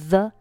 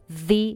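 First: The word ends in a short 'uh' vowel. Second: The word ends in a long 'ee' vowel. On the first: The speaker calls it wrong. "注意不读作the" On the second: The speaker calls it right. "读v，因为后面ordinary 这个单词它是以元音字母开头"

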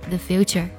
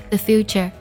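The two takes are said the same way.

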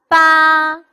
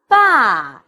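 First: The pitch stays high and level. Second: The pitch falls from high to low.

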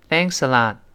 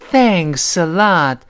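First: It is said lightly, with little feeling. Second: It is said warmly, with strong feeling. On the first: It is just a polite formality. "就是一个客套话，多谢多谢多谢，它感情并不太充沛" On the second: The speaker is sincerely and deeply grateful. "感情充沛，非常真挚在感谢"

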